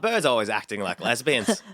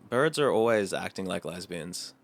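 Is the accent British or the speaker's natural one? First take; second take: British; natural. First: It is said in a put-on British accent. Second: It is said in the speaker's natural accent.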